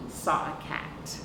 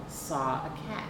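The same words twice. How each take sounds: The two takes are said the same way.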